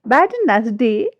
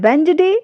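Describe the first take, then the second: First: A 'd' sound is heard before the 'n'. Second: No 'd' sound is heard before the 'n'. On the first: The speaker calls it wrong. "Wrong है" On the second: The speaker calls it right. "Right है"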